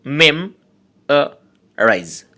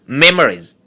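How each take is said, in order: First: memorise slowly split into three syllables with pauses. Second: Said in the usual way. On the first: Shown as a demonstration. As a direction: say memorise in three slow, separate beats. (Memorise তিন সিলেবলে থেমে থেমে) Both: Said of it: "trisyllabic words".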